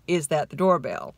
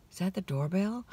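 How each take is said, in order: First: Said in the usual way. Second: Dreamy half-asleep. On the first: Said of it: "the reality was him saying". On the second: Retold or imitated. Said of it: "I say that disclaimer here".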